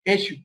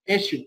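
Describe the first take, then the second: Both takes have the same delivery.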